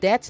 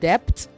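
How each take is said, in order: First: The b sound is silent. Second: The b sound is pronounced. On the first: The speaker calls it right. "the B is silent in debt" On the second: The speaker calls it wrong. "not debt"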